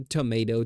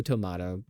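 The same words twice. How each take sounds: First: Tomato with a long A, to-MAY-to; tomato said as to-MAY-toe; tomayto. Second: Tomato with a broad A, to-MAH-to; tomato said as to-MAH-toe; tomahto. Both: Shown as a demonstration. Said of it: "you know, like".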